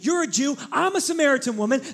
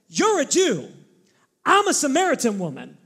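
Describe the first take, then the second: First: It is read in a plain, neutral tone. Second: It is said with a sassy, argumentative tone.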